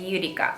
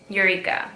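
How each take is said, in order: First: The name is said with a Japanese pronunciation. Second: The name is said with an English pronunciation.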